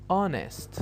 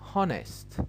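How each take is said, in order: First: The word starts directly with a vowel. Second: The first sound is a breathy H. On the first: The speaker calls it right. "the H here is silent" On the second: The speaker calls it wrong. "but that is not correct"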